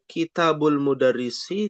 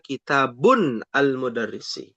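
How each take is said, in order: First: The first word ends without an n sound. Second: The first word ends with an n sound. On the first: The speaker calls it right. "Maksudnya kitabul mudarrisi" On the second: The speaker calls it wrong. "tidak boleh dibaca kitabun al-mudarrisi"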